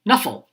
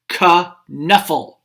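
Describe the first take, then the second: First: The K at the start is silent. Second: The K at the start is sounded. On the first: "The K is silent" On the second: "Trixie is saying"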